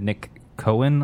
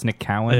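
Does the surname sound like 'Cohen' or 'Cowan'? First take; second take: Cohen; Cowan. First: The surname is pronounced like 'Cohen'. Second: The surname is pronounced like 'Cowan'. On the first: The speaker calls it wrong. "he said Nick Cohen a lot" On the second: The speaker calls it right. "and it's Nick Cowan"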